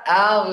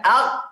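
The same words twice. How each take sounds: First: "al" with the ghain held and humming on; soft flowing ending. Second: "al" cut short with the ghain closed off; sound shut off. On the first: Teacher showing ghain's rakhawa trait, sound held on. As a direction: let the end of "al" flow on, long and unclosed. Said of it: "karena sifatnya, eh, rakhawa". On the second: Teacher showing ghain as if it were hard, shut off. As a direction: shut the end of "al" abruptly, no lingering sound. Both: Shown as a demonstration.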